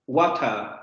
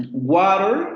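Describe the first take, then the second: First: "water" with a crisp t and no final r, falling; British water. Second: "water" with a flapped t like a quick d and a clear r at the end, rising; American water. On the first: Teacher contrasts British "water" for the class, crisp t. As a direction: say "water" as "wata". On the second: Teacher contrasts American "water" for the class, flapped t. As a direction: say "water" as "wader", r sounded. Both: Shown as a demonstration. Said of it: "No es lo mismo".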